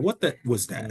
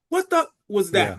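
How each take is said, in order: First: It is said in a calm, quiet voice. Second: It is yelled loudly, as if from far away. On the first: The curse is said up close, not shouted. The speaker calls it right. "if I swear, it has to be in a calm voice" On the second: The curse slips out while shouting from a distance. The speaker calls it wrong. "every now and again it will be a slip across the track"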